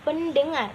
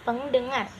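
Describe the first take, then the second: First: The prefix is pen before the d. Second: The prefix is peng before the d. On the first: The speaker calls it right. "Dibacanya menjadi pendengar" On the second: The speaker calls it wrong. "bukan pengdengar"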